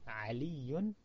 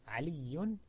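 No difference in how they are said.

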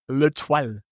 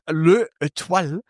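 First: The article and noun are run together into one. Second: The article and noun are said as separate words. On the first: The speaker calls it right. "sagt er natürlich Le Toile ... Und du verschleifst das" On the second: The speaker calls it wrong. "anstatt dass jemand sagt Le Étoile"

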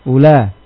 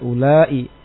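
First: The vowel is short with no glottal stop. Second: The vowel is long and ends with a glottal stop. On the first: This is the form used in another regional dialect. "Pada bahasanya mereka orang-orang tamim" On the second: This is the form used in one regional dialect. "Pada bahasanya orang Hijaz dengan hamzah"

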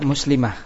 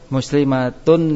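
First: The word ends with an h sound. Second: The word ends with a t sound and vowel. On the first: The reader stops at this word. "kalau kita waqaf semua kita baca muslimah" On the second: The word runs on into the next word. "ketika dibaca sambung taknya dibaca tak"

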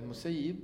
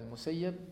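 First: The vowel before the final b is i. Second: The vowel before the final b is a. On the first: The one who lets something go. "المسيب هو الذي يسيب" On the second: The one who was let go. "واما المسيب سيب"

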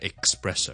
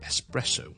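First: It begins with an eks sound, like express. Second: It begins with a plain es sound, no k. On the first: The speaker calls it wrong. "錯誤讀成咧espresso" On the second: The speaker calls it right. "只需要espresso"

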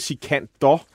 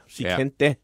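First: The name ends with an 'or' sound. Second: The name ends like 'panda'. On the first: The speaker calls it wrong. "Man siger ikke Sikandor" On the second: The speaker calls it right. "det er ligesom panda"

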